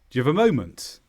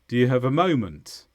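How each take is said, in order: First: Very fast; the small words are nearly dropped. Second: The small words have weak, reduced vowels. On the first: "at full speed, it would sound more like this" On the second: "All of the grammatical words become weaker in their vowels"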